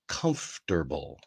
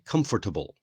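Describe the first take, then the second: First: The word is said in the American English way. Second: The word is said in a common learner way. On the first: The speaker calls it right. "in American English anyway, we pronounce it comfortable" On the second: The speaker calls it wrong. "many people want to say comfortable"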